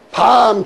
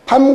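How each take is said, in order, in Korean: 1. 모음을 길게 발음해요. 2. 모음을 짧게 발음해요. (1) "길게 발음하면은 먹는 밤이 되는 거고" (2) "짧게 발음하면은 그것이 잠자는 밤이 되는 것"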